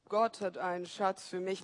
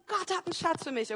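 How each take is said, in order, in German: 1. Er wird flach gesprochen, ohne viel Energie. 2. Er wird laut und mit jubelnder Begeisterung gesprochen. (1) "aber vielleicht mal nicht so" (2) "der ist ausgerastet und hat gesagt"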